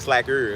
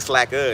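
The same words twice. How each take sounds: First: The word ends with a strong, hard R sound. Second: The word ends without a strong R sound. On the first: "Why you put the hard R on that?" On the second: "You didn't say slacker"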